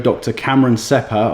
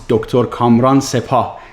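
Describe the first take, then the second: First: The first name is said with English pronunciation. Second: The first name is said with Persian pronunciation.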